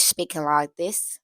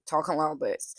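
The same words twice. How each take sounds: First: A light Irish lilt on speaking like this; Irish accent. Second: A light Southern US drawl on talking like this; southern accent. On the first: Showing where Remick's accent ends up, in an Irish accent. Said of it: "Irish speaking like this". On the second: Showing where Remick's accent starts, in a Southern accent. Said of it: "goes slowly from very southern". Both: Shown as a demonstration.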